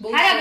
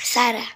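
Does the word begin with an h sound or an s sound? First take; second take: h sound; s sound. First: The word begins with an h sound. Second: The word begins with an s sound. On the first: The speaker calls it wrong. "હારા બોલે છે" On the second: The speaker calls it right. "સારા છે એમ બોલાય"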